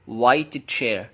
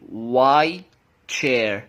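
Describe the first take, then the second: First: The t of white is clearly released. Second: The t of white is dropped before ch.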